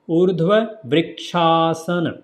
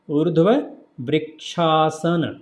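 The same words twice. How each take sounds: First: The parts are run together smoothly. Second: The same.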